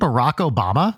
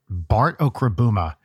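First: The name is said as Barack Obama. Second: The name is garbled as Bart Okrabuma. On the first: The name as it is normally said. The speaker calls it right. "do you mean Barack Obama?" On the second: A child mispronounced the name. The speaker calls it wrong. "one time she was talking about Bart Okrabuma"

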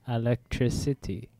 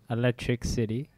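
First: It sounds like one word, electricity. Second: It sounds like two words, electric city. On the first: The speaker calls it right. "Very similar. One is better than the other" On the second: The speaker calls it wrong. "Very similar. One is better than the other"

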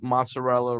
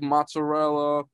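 First: It is said with a plain standard pronunciation. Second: It is said with an Italian American pronunciation. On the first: The speaker calls it right. "Do you just say mozzarella" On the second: The speaker calls it wrong. "the way every Italian American says, like mozzarella"

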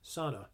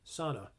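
First: It is said with the common American pronunciation. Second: It is said with the common American pronunciation.

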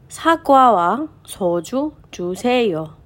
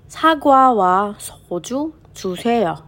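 The two takes are said the same way.

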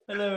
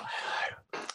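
First: It is said in a normal voice. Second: It is said in a soft ASMR-style voice.

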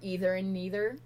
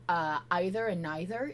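First: Either and neither are said the American way. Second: Either and neither are said the British way. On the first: "is American" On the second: "is very British English"

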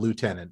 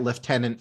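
First: It is said with an 'oo' sound, 'lootenant'. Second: It is said with an 'f' sound, 'leftenant'.

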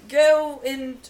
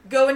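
First: It is spoken in a put-on Australian accent. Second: It is spoken in the speaker's normal accent. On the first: "This is an Australian accent, apparently" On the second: "I'm just gonna talk normally"

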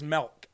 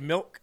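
First: The vowel sounds like a short 'e'. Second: The vowel is a plain short 'i'. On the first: "she says milk. M-E-L-K" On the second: "Instead of milk"

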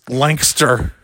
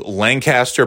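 First: It is said the way locals say it. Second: It is said the usual outsider way.

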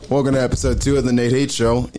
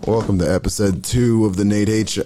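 First: It is said with more energy. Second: It is said with less energy.

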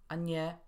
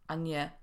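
Both takes have the same delivery.

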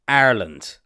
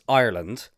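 First: The first syllable sounds like 'ar'. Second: The first syllable sounds like 'eye'. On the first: The speaker calls it wrong. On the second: The speaker calls it right.

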